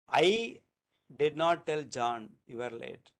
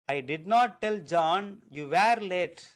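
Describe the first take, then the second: First: The stress falls on the word I. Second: The stress falls on the word you. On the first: Someone else told. "That means that I didn't say, somebody else told" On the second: Someone other than the listener was late. "That means that you you were not late, you are also late"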